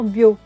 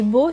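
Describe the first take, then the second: First: A y glide comes between the b and vowel. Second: The vowel follows the b directly, no glide. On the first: This is the regional dialect form. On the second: This is the standard French form.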